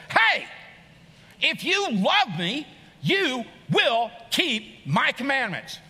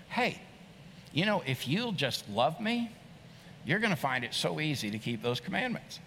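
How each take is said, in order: First: Loud, slow, higher commanding voice, punching each word; stern demand. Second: Gentle invitation. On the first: Preacher mimicking a harsh God demanding obedience, loud and stern. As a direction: bark it like a strict order, slowly. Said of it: "I believe the scripture read like this". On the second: Preacher showing Jesus inviting love gently, soft and tender. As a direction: coax it kindly like a loving friend. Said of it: "but it sounded like this". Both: Shown as a demonstration.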